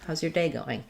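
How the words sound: The stress falls on day. It is the standard question about the day. "Day is the important word there"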